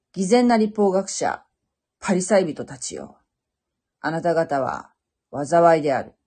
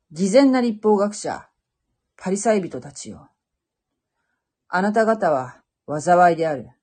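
The two takes are said the same way.

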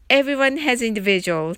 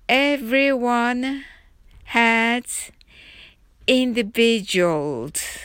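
First: The sentence is spoken quickly. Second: The sentence is spoken slowly. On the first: "次に早く言ってみましょう。" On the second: "はじめはゆっくりです。"

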